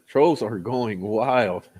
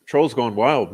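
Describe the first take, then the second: First: Slow and deliberate, each word stretched; slow, drawn out. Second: Said in the usual way. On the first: Acted. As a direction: drag it out for effect. Repeated slowly for emphasis.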